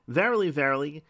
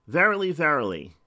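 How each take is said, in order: First: Said in the usual way. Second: Verily said loud and falling, verily, verily; preacher stresses each verily for weight; emphatic verily. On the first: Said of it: "is inferring that what I'm gonna say". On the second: Shown as a demonstration. Preacher repeating for the congregation, weighty emphasis. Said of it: "Let me say that again".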